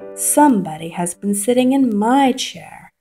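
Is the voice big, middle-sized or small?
middle-sized. It is said in a middle-sized voice.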